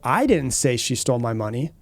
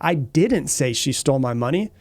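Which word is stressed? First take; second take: I; didn't. First: The stress falls on the word "I". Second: The stress falls on the word "didn't". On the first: Someone else said it. "that shows, you know, someone else said it. I didn't say it" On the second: The accusation of having said it is denied. "I'm denying the claim or the, the accusation that I said she stole my money"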